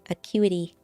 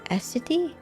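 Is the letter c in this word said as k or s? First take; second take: k; s. First: The c is said as a k sound. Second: The c is said as an s sound. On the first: "I would say it's a Q" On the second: "Is this a S or an Ak?"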